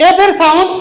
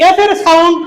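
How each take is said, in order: No difference in how they are said.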